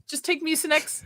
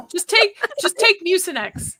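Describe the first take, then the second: First: Said in the usual way. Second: Said through a laugh, higher; amused suggestion cracking up mid-line. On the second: Real, not acted. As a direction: blurt it out while still giggling.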